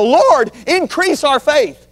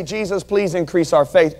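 First: Desperate cry. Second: Said in the usual way. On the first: Acted. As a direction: beg the Lord out of desperation, slowly. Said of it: "out of desperation". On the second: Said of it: "These guys just didn't say".

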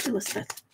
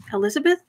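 First: Said in the usual way. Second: ELIZABETH with a rising, doubtful tune; questioning the name. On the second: Real, not acted. Catching own mistake with a viewer's name, questioning rise on "Elizabeth". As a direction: query "Elizabeth" as if catching a slip.

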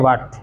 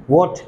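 First: "वाट" with a long aa; mispronunciation. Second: "वॉट" with a short rounded o; correct pronunciation. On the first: Teacher mocking how people read what, mispronunciation. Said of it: "वॉट को पढ़ते हैं वाट". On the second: Teacher giving the proper what, correct pronunciation. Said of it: "तो वाट नहीं लगानी है". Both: Shown as a demonstration.

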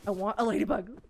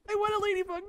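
First: Said in the usual way. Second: High whiny plea. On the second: Real, not acted. She begs for the ladybug, high and whining.

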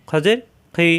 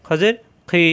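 No difference in how they are said.

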